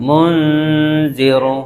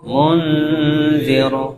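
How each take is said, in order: The two takes are said the same way.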